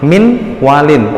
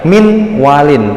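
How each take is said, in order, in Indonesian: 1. Bunyi n diucapkan dengan jelas sebelum w. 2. Bunyi n diucapkan dengan jelas sebelum w.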